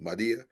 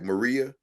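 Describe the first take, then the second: First: The middle consonant is a D sound. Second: The middle consonant is an R sound. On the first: "the R sounds like a D" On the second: "like Maria"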